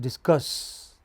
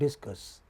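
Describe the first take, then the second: First: The stress is on the second syllable. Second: The stress is on the first syllable. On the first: The speaker calls it right. "it is discuss" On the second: The speaker calls it wrong. "It is not discuss"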